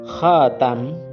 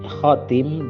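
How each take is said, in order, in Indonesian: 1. Vokal setelah t adalah 'a'. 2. Vokal setelah t adalah 'i'. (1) "khatam dengan huruf ta yang di fathah" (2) "khatim dengan huruf ta yang dikasroh"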